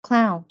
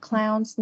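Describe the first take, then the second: First: The word ends on the n, with no s. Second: The word ends with an added s sound. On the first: The speaker calls it right. "mà là cow, clown" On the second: The speaker calls it wrong. "không có kiểu đọc là cows hay là clowns"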